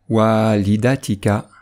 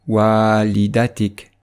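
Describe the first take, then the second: First: The word is said in its full connected form. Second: The word is said in its shortened pausal form. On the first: The reciter continues into the next word. "sans faire de pause" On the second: The reciter stops after this word. "comme si on faisait une pause"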